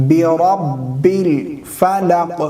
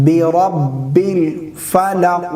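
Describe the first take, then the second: No difference in how they are said.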